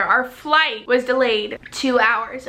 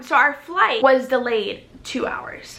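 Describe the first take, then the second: First: Slow, deliberately spaced words; calm, clear repeat. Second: Slow, very calm delivery; forced calm. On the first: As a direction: spell it out calmly for the listeners. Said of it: "say that again so you guys can, um, hear". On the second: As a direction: say it really calmly and slowly. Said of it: "I'm gonna say this really calm". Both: Shown as a demonstration.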